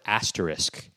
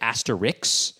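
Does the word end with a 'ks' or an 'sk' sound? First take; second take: sk; ks. First: The word ends with an 'sk' sound. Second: The word ends with a 'ks' sound. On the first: The speaker calls it right. "people often mispronounce the word asterisk" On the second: The speaker calls it wrong. "They'll say asterix"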